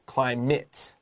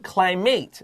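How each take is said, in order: First: The last syllable has a short 'mit' vowel. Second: The last syllable has a long 'mate' vowel. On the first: The speaker calls it right. "它会发短 I" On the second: The speaker calls it wrong. "we don't say climate"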